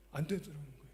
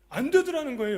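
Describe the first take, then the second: First: Said in the usual way. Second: 안 되더라는 거예요 thrown out higher and louder; preached emphasis. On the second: Shown as a demonstration. Preacher stressing to the congregation that it did not work, loud. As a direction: hammer 되더라는 home.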